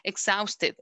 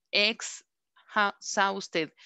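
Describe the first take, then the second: First: Said in the usual way. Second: "exhausted" broken into slow separate syllables, pausing after "ex". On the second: Shown as a demonstration. Teacher showing the class the syllable count, "exhausted" said in separated pieces. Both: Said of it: "Exhausted tiene dos".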